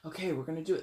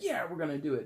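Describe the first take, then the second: First: It sounds serious and grimly determined. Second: It sounds triumphant and celebratory.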